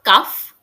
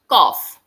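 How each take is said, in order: First: The vowel sounds like the one in 'cuff'. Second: The vowel sounds like the one in 'coff'. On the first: The speaker calls it wrong. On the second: The speaker calls it right.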